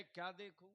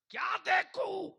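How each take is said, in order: First: Said in the usual way. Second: Very high, loud retort; shouted challenge. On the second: Acted. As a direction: throw the question out at full voice. Preacher repeats question at full force. (ऊँची आवाज़ में ललकारता सवाल)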